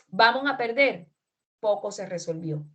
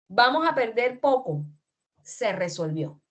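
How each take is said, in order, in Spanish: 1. La pausa va justo después de la palabra perder. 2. La pausa va justo después de la palabra poco.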